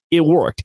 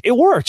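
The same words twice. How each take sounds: First: Said in the usual way. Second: Worked blurted out much higher; "It worked" leaps up the second time; excited. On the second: Real, not acted. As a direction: give the repeat a big excited jump in pitch. Repeats the line, then rises.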